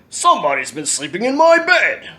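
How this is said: It is said in a deep, growly voice.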